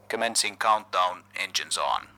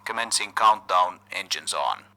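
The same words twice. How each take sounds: The two takes are said the same way.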